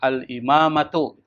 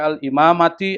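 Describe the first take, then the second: First: The word ends in an u vowel. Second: The word ends in an i vowel. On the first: The speaker calls it right. "biasanya dibaca itu dhammah" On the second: The speaker calls it wrong. "nggak boleh dibaca"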